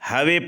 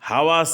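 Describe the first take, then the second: First: The final vowel is bent to an e sound. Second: The final vowel is an open a sound.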